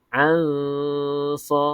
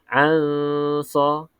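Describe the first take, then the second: The two takes are said the same way.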